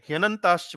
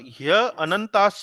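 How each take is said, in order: First: It is said as one joined word. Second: There is a break after the first syllable. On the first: The speaker calls it right. "ह्यनंताश्च बोलेंगे" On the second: The speaker calls it wrong. "ह्य अनंताश्च नहीं बोलेंगे"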